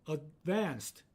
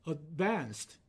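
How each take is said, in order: Both takes have the same delivery.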